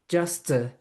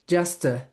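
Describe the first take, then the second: No difference in how they are said.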